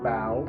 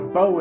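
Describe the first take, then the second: First: The vowel rhymes with the word cow. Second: The vowel rhymes with the word go. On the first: It means the front of a ship. "the word bow on a ship" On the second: It means the weapon used with arrows. "like a bow and arrow"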